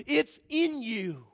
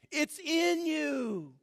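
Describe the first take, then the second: First: Slow, deliberate, each word leaned on; slow emphatic. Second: Higher, very slow, drawn-out "It's in you"; slow intense repeat. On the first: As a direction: let "it's in you" sink in slowly. Climax, slowed and intense. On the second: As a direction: rise up and stretch "It's in you". Repeated higher and even slower. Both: Real, not acted.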